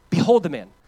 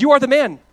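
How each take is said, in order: First: Said in the usual way. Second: Loud, high accusation; Nathan's loud accusation; accusing shout. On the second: Acted. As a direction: point the finger and call him out.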